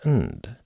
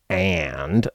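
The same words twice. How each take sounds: First: The vowel is reduced to a schwa. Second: The vowel is full and clear. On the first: The speaker calls it right. "I said and" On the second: The speaker calls it wrong. "I didn't say and"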